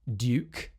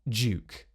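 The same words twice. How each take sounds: First: It begins with a d plus y sound. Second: It begins with a j sound.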